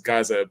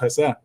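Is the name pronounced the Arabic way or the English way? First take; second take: English; Arabic. First: It starts with a hard English G sound. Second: It starts with a throaty, rolled back sound. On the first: "Americanized, anglicized version is Gaza" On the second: "if you're saying it in Arabic, it's Hassa"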